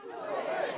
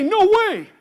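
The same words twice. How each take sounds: First: Whispered echo. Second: Put-on loud, high call for the kids to echo; loud refusal. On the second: Host cueing kids to shout the line, loud. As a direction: lead the crowd in a big no. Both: Shown as a demonstration. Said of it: "Everybody say".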